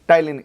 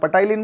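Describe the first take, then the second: First: The word begins with a t sound, no p. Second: The word begins with a p sound before t. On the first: The speaker calls it right. "इसमें पी silent रहेगा" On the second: The speaker calls it wrong. "पटाइलिन मत बोल देना"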